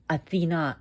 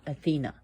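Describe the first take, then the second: First: Athena as ah-thee-NAH, weight on the final A; Greek pronunciation. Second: Said in the usual way. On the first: Shown as a demonstration. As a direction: open "ah" at both ends of Athena, last syllable stressed. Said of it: "Emphasis on the A". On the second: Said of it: "and not Athena".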